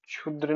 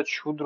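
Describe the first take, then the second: First: क्षुद्र said 'chhudra'; rejected form. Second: Said in the usual way. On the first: Shown as a demonstration. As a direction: say क्षुद्र with initial 'chh'. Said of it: "नहीं होता". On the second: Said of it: "होता है".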